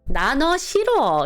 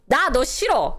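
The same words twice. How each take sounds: First: It is said in a soft, gentle way. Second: It is said in a harsh, cold way. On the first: The words are not meant seriously. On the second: The words are meant seriously.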